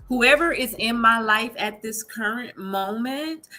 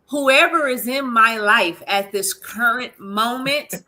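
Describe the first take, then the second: First: It is said at a quieter, normal volume. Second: It is said noticeably louder.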